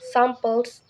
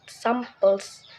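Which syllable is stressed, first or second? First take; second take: first; second. First: The stress is on the first syllable. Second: The stress is on the second syllable. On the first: The speaker calls it right. "the first syllable, sam, is stressed" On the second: The speaker calls it wrong.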